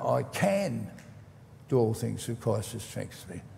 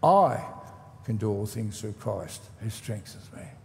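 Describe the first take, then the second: First: The stress is on the word can. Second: The stress is on the word I.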